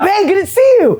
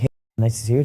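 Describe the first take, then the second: First: It is said loudly and outgoingly. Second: It is said quietly and shyly.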